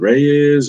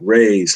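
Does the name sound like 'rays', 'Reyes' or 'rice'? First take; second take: Reyes; rays. First: The name has two syllables, like 'ray-yes'. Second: The name rhymes with 'days', one syllable. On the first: "Is it Reyes or Rice or?" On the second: "like stingrays, sun rays"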